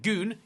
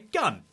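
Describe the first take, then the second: First: The vowel is a long oo sound. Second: The vowel is a short uh sound. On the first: The speaker calls it wrong. "instead of saying goon" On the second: The speaker calls it right. "you would say gun"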